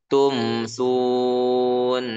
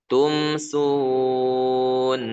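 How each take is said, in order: The two takes are said the same way.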